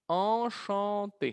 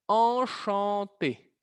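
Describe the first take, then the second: Both takes have the same delivery.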